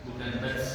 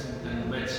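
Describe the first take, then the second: No difference in how they are said.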